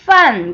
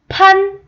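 First: The word begins with an f sound. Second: The word begins with a p sound. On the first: The speaker calls it right. "F 발음이에요" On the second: The speaker calls it wrong. "판 아니고"

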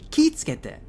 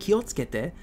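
First: The 'o' is dropped and 'ki' is lengthened. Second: The 'o' after 'ki' is pronounced. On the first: "in the Kansai dialect, they'll say kitsukete" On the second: "instead of saying kiotsukete"

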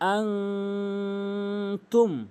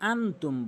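First: The n sound is held through the nose. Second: The n sound is short and plain. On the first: The speaker calls it right. "আং নাকের ভিতর নিতে হবে, গুণনা করতে হবে" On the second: The speaker calls it wrong. "এখানে যে ভুলটি করি সেটি হচ্ছে আনতুম বলি"

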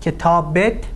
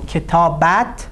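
First: The ending is pronounced with an 'e' vowel, 'et'. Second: The ending is pronounced with an 'a' vowel, 'at'. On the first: This is the everyday spoken form. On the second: This is the formal written form.

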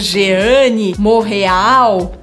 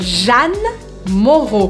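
First: The first name is said with several vowel sounds. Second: The first name is said with one vowel sound. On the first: The speaker calls it wrong. "eu não falo Jeanne Moreau" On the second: The speaker calls it right. "Como se Jeanne se escrevesse J-A-N-E"

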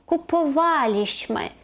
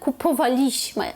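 First: The stress is on the third-last syllable. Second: The stress is on the second-last syllable. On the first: The speaker calls it right. "Наголос тут буде ставитись не на другий склад з кінця, а на третій" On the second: The speaker calls it wrong. "«kupowaliśmy», але це неправильно"

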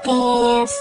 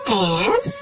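First: It is said with the first tone. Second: It is said with the second tone. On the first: "yung first tone ay yung pa-sweet na tone, gaya nito" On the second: "Yung second tone ay nag-iinarteng tone, gaya ng"

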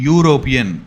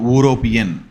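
First: The word begins with a 'yoo' sound. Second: The word begins with a plain 'oo' sound. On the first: The speaker calls it right. "That is యూ not ఊ" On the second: The speaker calls it wrong. "Not"

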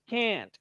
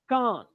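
First: It is said in an American accent. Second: It is said in a British accent. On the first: "So American English" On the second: "British English"

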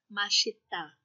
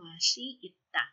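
First: It is said shortened into three syllables. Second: It is said slowly in four separate syllables. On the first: The speaker calls it right. "Nagiging shortcut niya is mashita" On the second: The speaker calls it wrong. "Hindi na sinasabi yung mashi itta"

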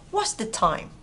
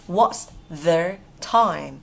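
First: It is said fast with the words run together. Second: It is said slowly, word by word.

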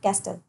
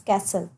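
First: The word is said with a T sound. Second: The word is said with no T sound. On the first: The speaker calls it wrong. "It's not castle" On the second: The speaker calls it right. "It's castle"

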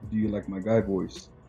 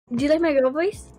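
First: It is said in a put-on manly voice. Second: It is said in a put-on girlish voice.

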